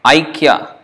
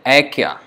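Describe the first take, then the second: First: The first vowel is the diphthong 'ai'. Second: The first vowel is a plain 'a' sound. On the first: This is the Sanskrit pronunciation. "Like Aikya in Sanskrit" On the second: This is the Hindi pronunciation. "But in Hindi they may say Aikya"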